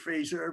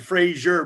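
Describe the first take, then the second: First: The name is said the British way. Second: The name is said the common American way. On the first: This is the name's proper form. The speaker calls it right. "no, it's actually Fraser" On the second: This is how many local people say the name. The speaker calls it wrong. "A lot of people when they when they reference them over here, they say Frazier"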